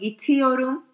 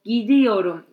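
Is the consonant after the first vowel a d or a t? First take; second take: t; d. First: The consonant after the first vowel is t. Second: The consonant after the first vowel is d. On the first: The speaker calls it wrong. "instead of" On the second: The speaker calls it right. "t instead you have d"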